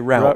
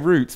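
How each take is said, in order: First: The word is said in an American way. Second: The word is said in a non-American way. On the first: "which is the kind of American" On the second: "I would say"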